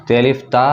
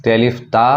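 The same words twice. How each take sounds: The two takes are said the same way.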